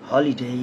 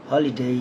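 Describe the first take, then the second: No difference in how they are said.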